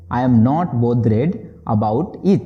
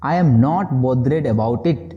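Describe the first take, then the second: First: Slow restatement before explaining; slow repeat. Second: Very slow, word by word; slow model sentence. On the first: Teacher repeating the phrase slowly before translating. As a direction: say it again slowly. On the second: Teacher modelling the English phrase slowly for students. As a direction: spell it out slowly for learners. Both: Shown as a demonstration. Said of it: "बोलेंगे".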